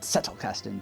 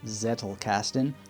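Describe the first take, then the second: First: The first sound is a sharp, spitty ts. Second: The first sound is a soft English z. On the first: "if there isn't spit on the mirror when you're using the letter Z in German" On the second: "you might prefer to pronounce it Zettelkasten"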